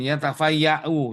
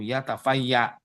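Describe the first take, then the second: First: The word ends with a glottal stop and 'oo'. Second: The word ends without a final 'oo' vowel. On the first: This is the form used when reading on. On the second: This is the form used when pausing.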